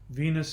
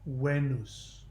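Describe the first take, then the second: First: It begins with a V sound. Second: It begins with a W sound.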